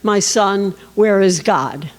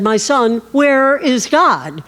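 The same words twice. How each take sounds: First: It is said gently and softly. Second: It is said with more insistence.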